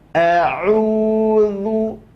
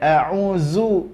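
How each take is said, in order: First: The middle consonant is a voiced th-like sound. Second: The middle consonant is a plain z sound. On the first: The speaker calls it right. "lidah akan keluar dari batas giginya" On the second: The speaker calls it wrong. "Jadi bukan a'uzu"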